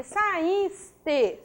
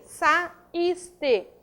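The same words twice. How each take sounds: First: "saíste" said slowly and carefully; slow teaching pronunciation of "saíste"; drawn-out word. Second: "saíste" split as sa - ís - te; syllable by syllable. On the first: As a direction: stretch out "saíste" for learners. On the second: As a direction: pause between sa, ís and te. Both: Shown as a demonstration. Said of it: "a sílaba tônica é o is".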